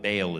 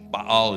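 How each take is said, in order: First: The name is said with an English pronunciation. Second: The name is said with a Hebrew pronunciation. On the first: "Baal is the way we say it" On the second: "Baal is the Hebrew way to say it"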